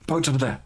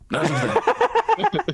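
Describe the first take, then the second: First: Said in the usual way. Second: Comic squeaky sidekick calling out; high, slow squeaky voice. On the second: Acted. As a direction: pitch way up and draw it out. GM voices Talon pointing out boats.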